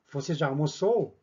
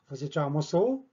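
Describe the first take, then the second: First: The pitch peaks on the stressed syllable, then falls. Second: The pitch keeps rising to the very end. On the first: The speaker calls it right. "맨 뒤에 나오는 단어의 악센트가 들어가는 부분을 가장 강하게 읽어주고 내려가 주면 됩니다" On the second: The speaker calls it wrong. "이렇게 하지 않습니다"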